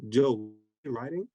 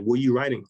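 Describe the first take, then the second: First: "riding" drawn out with a rising end; imitating a wife's slow, probing "Joe, you riding?"; slow question, lifting on "riding"; suspicious question. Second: "Were you riding" louder, falling at the end; imitating a wife demanding an answer with "Were you riding"; insistent question. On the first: Wife questions him on phone. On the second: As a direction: press hard on "you", then drop.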